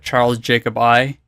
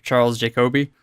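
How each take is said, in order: First: The surname ends with a separate 'eye' sound. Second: The surname ends with an 'ee' sound. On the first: The speaker calls it wrong. "I always remembered it as like Charles Jacob I" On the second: The speaker calls it right. "instead of Charles Jacoby"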